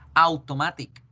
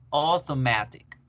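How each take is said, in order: First: The word is read with Spanish-like sounds. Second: The word is said with English sounds. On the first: The speaker calls it wrong. "ya no van a decir automatic" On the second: The speaker calls it right. "van a decir auto, auto, automatic"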